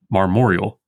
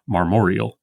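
First: "marmoreal" glided to three syllables, "mar-mor-yal"; elided marmoreal. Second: "marmoreal" slowly in four syllables; full marmoreal. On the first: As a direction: slide through the vowels. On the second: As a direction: spell out "marmoreal" unhurriedly. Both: Shown as a demonstration. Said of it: "not marmoreal".

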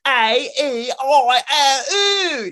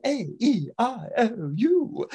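First: Slow, loud, high wailing vowels; mangled Cockney vowels. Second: Careful proper vowels. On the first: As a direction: wail them out like a street girl. Flower girl mangling vowels. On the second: Vowels now correct. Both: Shown as a demonstration.

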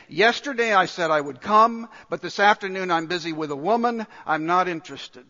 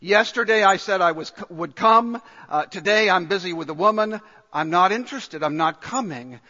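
First: Rude guest brushing off the host; dismissive, said in passing; first rude take. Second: Loud, dismissive refusal; the rude guest brushing off the host, louder. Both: Retold or imitated. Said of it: "very rudely saying".

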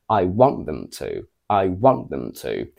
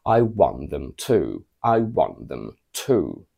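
First: Want stressed, to left light and unstressed; stress on want only. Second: Want and to both stressed, to given full weight. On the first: Teacher modelling one stressed word, want. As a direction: punch want and let the rest fall away. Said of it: "the only word that is stressed in this sentence is want". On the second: Teacher modelling two stressed words, want and to. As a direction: hit want, then land firmly on to. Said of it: "we need to stress both of them". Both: Shown as a demonstration.

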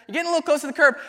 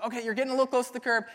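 First: Higher, louder repeat of the warning; instructor's warning turns into a near-yell. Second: Said in the usual way. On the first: Retold or imitated. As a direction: raise the alarm as the car nears the curb. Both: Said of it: "And she goes".

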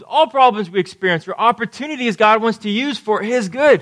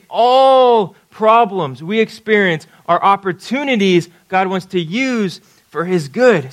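First: Said in the usual way. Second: Preacher's slow emphatic restatement; slow emphatic repeat. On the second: Shown as a demonstration. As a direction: drive the point home slowly. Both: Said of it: "Let me say that again".

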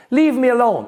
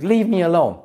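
First: Higher and louder mock yell; upset outburst. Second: Mild mock outburst. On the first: Girlfriend storming out on partner, higher louder mock outburst. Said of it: "and she storms out of the room". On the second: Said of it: "she's like".

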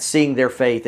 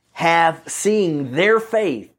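First: Said in the usual way. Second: THEIR drawn out, the phrase very slow; slow emphatic repeat, weight on "their"; stress on THEIR. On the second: Shown as a demonstration. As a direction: lean slowly and heavily on "their". Preacher repeats verse to stress whose faith.

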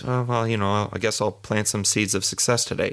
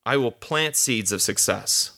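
First: Shrugging, noncommittal delivery; lazy, unconvinced version of the affirmation; half-hearted. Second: Slow, firm, stress on "plant"; deliberate confident affirmation; with conviction. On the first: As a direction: toss it off like you doubt it. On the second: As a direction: say it as settled fact. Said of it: "You have to say it with conviction". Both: Shown as a demonstration.

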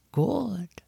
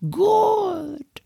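First: Soft breathy whispered good; soothing whisper. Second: High, sing-song coo of good; soothing. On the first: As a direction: whisper it gently to calm her. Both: Acted. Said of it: "in a soothing tone".

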